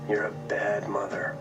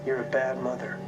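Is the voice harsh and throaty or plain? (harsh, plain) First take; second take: harsh; plain. First: The voice is harsher and comes from the throat. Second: The voice is plain, not harsh or throaty.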